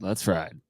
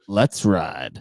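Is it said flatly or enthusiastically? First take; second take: flatly; enthusiastically. First: It is said flatly, with little energy. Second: It is said with more enthusiasm and energy.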